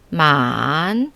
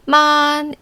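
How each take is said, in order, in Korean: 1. 음이 더 낮게 내려갔다가 곡선을 그리며 다시 올라가요. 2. 음이 높고 평평하게 길게 유지돼요. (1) "삼성은 ... 아래로 내려갔다가 다시 위로 올라가는" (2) "일성은 [name]처럼 높고 평평하고 길게"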